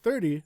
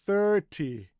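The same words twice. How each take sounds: First: The T is soft and relaxed. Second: The T is over-enunciated and strong.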